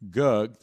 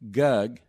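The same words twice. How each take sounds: First: The syllable sounds forward with rich vocal color. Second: The syllable sounds flat with no vocal color. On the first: The speaker calls it right. "there is" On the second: The speaker calls it wrong. "there's no color in it"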